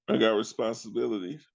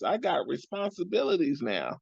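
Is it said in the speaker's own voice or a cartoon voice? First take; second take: own voice; cartoon voice. First: It is said in his normal voice. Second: It is said in a Tommy Pickles voice.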